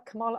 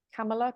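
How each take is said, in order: First: "Kamala" stressed in the middle, kuh-MAH-luh; trying a pronunciation. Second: "Kamala" with a short a, stress up front, KAM-uh-luh; trying a pronunciation. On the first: Host unsure of the name, trying "Kamala" as kuh-MAH-luh. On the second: Host unsure of the name, trying "Kamala" as KAM-uh-luh. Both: Shown as a demonstration. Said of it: "I don't know how to pronounce it".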